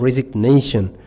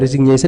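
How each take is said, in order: First: It is said with English pronunciation, resig-nation. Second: It is said with French pronunciation. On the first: The speaker calls it right. "Resig, you separate. Resig after nation" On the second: The speaker calls it wrong. "it is French. It is not English"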